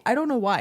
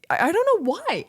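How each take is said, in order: First: Said in the usual way. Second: Higher, louder baffled cry; exasperated outburst. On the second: Real, not acted. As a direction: throw up your hands, higher. Exasperated at own shame.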